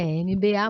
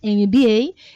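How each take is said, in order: First: The letters are named the Portuguese way. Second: The letters are named the English way. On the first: The speaker calls it wrong. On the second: The speaker calls it right.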